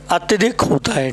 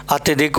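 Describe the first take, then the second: First: अत्यधिक said clearly as the right form; correct form. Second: अत्यधिक as the wrong form; wrong spelling said. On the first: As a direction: say अत्यधिक carefully. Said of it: "अत्यधिक आपका कैसा है? Wrong है". (सही रूप अत्यधिक) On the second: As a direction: say अत्यधिक as the mistake. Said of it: "तो अत्यधिक नहीं होता मेरे भाई". (गलत रूप अत्यधिक) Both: Shown as a demonstration.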